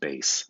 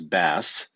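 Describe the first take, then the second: First: It is said like the word base. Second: It is said like the fish name. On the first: It names the low musical register. The speaker calls it right. "but rather just base" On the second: It names a kind of fish. The speaker calls it wrong. "not to pronounce this bass like you're about to go fishing"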